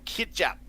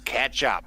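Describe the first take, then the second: First: It is said with a New Zealand accent. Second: It is said with an Australian accent. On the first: The speaker calls it wrong. "that's the New Zealand way of saying it" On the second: The speaker calls it right. "Australian way is catch up"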